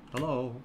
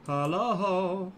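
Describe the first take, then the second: First: Said in the usual way. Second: Sing-song, lingering "Hello"; calling out. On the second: Pretend. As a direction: stretch "Hello" into a searching call. Calls again to see who's there.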